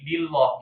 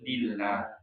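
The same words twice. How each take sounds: First: The L is pronounced thick and heavy. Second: The L is pronounced thin and light. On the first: The speaker calls it wrong. "jangan jangan jadi lillah ya" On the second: The speaker calls it right. "tapi lillah"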